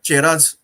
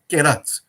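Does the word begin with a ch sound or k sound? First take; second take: ch sound; k sound. First: The word begins with a ch sound. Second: The word begins with a k sound. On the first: The speaker calls it wrong. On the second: The speaker calls it right. "If you are pronouncing chemistry"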